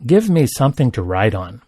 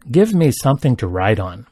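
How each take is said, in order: Both takes have the same delivery.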